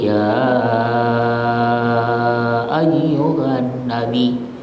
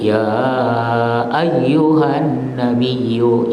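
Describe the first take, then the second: First: The long vowel is held for six counts. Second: The long vowel is held for four counts. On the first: "boleh enam dalam ilmu qiraah" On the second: "boleh empat"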